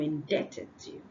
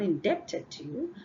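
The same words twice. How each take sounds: First: The B is silent. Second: The B is sounded. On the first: The speaker calls it right. "I am indebted to you" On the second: The speaker calls it wrong. "I'm not indebted to you"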